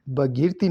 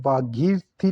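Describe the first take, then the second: First: भगीरथी with short first a; wrong pronunciation. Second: भागीरथी with long first aa; correct pronunciation. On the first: Teacher showing the error, भगीरथी with short a. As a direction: say भगीरथी as "bha-geer-thee". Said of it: "भगीरथी नहीं". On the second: Teacher correcting the word, भागीरथी with long aa. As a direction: say भागीरथी as "bhaa-geer-thee". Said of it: "लिखा जाता है". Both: Shown as a demonstration.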